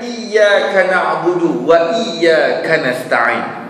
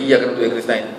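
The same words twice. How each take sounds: First: The doubled consonant is held long and stressed. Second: The doubled consonant is cut short, not stressed. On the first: The speaker calls it right. "Ada syaddah yang perlu ditekankan" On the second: The speaker calls it wrong. "Kalau syaddahnya atau Fatihahnya tak dijaga dengan elok"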